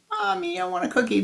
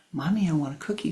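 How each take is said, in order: First: Put-on much higher child voice; changed voice. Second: Said in the usual way. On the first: Shown as a demonstration. Boy showing how his voice changed. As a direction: squeal it up high. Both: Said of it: "my voice changed".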